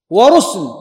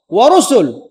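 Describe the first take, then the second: First: ورسل as "wa-rusl", no vowel after س; lightened sukun form. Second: ورسل as "wa-rusul", u after س; full voweled form. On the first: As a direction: close the س of ورسل straight onto the l. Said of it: "على سبيل التخفيف". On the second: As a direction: say ورسل with a short u on the س. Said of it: "كما يقال". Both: Shown as a demonstration.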